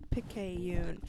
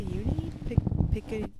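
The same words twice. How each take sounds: First: Picayune said whole as pick-ay-yoon; settled pronunciation. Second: Halting first try at Picayune, broken into pieces; struggling to pronounce. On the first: Reading the newspaper name, finally getting Picayune out. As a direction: land Picayune in one go. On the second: Reading the Axeman letter aloud, stumbling over Picayune. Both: Real, not acted. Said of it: "that's a word I'm never gonna be able to pronounce".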